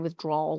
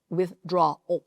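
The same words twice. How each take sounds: First: The ending is squeezed into one 'drawl' sound. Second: The ending is said as 'draw' plus 'al'. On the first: The speaker calls it wrong. "Don't say withdrawal like drawl, like you're a southern drawl" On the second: The speaker calls it right. "No, it's withdrawal"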